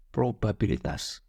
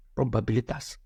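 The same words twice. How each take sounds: First: Probabilitas said slowly and deliberately, falling at the end; emphasized word. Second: Said in the usual way. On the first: Shown as a demonstration. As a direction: drag out probabilitas, weighing each syllable. (probabilitas diucapkan pelan dan ditekankan)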